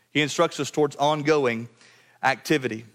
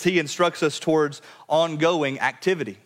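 First: "towards ongoing" then a pause before "activity.", falling; hammering home the key phrase; measured restatement. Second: Said in the usual way. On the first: Shown as a demonstration.

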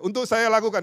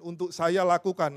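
First: Louder call-and-response, saya stressed; congregation repeat aloud. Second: Said in the usual way. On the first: Shown as a demonstration. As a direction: lead them to say "saya" strongly.

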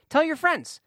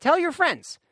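First: Eager plug. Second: High bright repeat of Tell your friends; eager plug, repeated. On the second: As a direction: push it again, higher. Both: Real, not acted. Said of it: "podcast plug".

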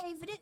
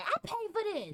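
First: Mocking parent. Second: High, smug parent voice; mocking parent, pitched up. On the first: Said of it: "they stay saying that". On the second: Son mimics parent bragging about paying, in a high mocking voice. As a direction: parody the parent who claims everything. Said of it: "they be like".

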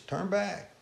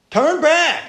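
First: Quiet warning. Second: High, loud cry of turn back; loud warning. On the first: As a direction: say it almost under the breath. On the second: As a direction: shout it after them down the street. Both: Acted. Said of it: "telling every time they walk up there".

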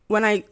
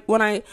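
Both takes have the same delivery.

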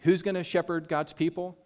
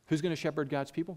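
First: First ask, a bit higher, stress on "Who's"; rhetorical question. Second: Softer and fast, rising at the end; quicker repeated question. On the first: Preacher posing the question to the congregation, stressed "Who's". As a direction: pose "Who's gonna shepherd God's people?" with a stressed "Who's". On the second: Preacher repeating the question to the congregation, fast and rising. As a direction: echo "Who's gonna shepherd God's people?" quickly and lightly. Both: Shown as a demonstration. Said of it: "repeats the question".

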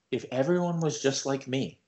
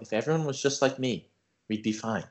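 First: Quiet and calm. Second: Softer, calm enlightened tone; quiet and calm. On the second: Friend imitating Ben's enlightenment, quiet and calm. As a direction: say it like his chakras just cleared. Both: Retold or imitated. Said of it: "he got real quiet and real calm".

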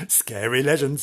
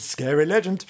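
First: Said in the usual way. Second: Spookier second take, a touch higher; spooky. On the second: Shown as a demonstration. Host repeats it, spookier this time. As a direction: make the legend sound scary.

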